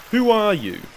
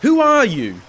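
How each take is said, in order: First: Firm challenge in a disguised voice, pitch rising then falling; deep disguised voice. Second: High, loud, alarmed challenge; shrill call. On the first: Hidden woman challenges the startled slave, disguised voice. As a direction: demand it from hiding. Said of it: "she said in a deep tone". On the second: Slave calls to the unseen stranger, shrilly. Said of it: "he called shrilly". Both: A narrator's reading.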